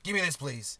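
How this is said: It is said in a curt, impolite tone.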